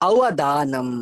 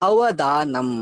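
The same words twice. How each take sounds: The two takes are said the same way.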